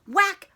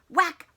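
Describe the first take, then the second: No difference in how they are said.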